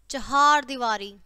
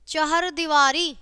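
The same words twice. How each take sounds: First: चहार दीवारी said "chahaar", long "haa"; correct, slow चहार दीवारी with open "haar"; correct long vowel. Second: चहर दीवारी said "chahar", short second vowel; slow चहर दीवारी without long "aa" in चहर; wrong short vowel. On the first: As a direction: stretch the second syllable of चहार. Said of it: "और फिर शुद्ध है". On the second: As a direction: mistaken चहर दीवारी, "har" kept short. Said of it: "पहले हमारी अशुद्ध शब्द है". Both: Shown as a demonstration.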